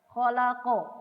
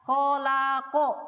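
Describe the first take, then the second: First: The final consonant is held with no vowel after. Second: The final consonant is followed by an 'a' vowel. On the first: "Itu kita tidak bergerak mulutnya" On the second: "Beda kalau kita kasih fathah"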